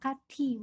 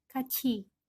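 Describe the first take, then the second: First: The middle consonant is a 't' sound. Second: The middle consonant is a 'ch' sound. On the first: The speaker calls it wrong. "itu bukan dibaca kati, bukan ya" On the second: The speaker calls it right. "tapi dibacanya menjadi kaci"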